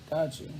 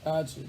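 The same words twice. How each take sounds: The two takes are said the same way.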